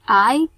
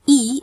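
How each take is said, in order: First: The letter is said with an 'eye' vowel. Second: The letter is said with an 'ee' vowel. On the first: This is the English letter name. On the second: This is the Indonesian letter name.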